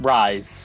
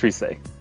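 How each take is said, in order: First: The name is said as Rise. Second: The name is said as Risei. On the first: The speaker calls it wrong. "It's not Rise" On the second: The speaker calls it right. "it's pronounced Risei"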